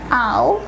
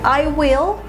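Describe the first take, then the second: First: The words are merged into one contracted syllable. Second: Both words are said fully and separately.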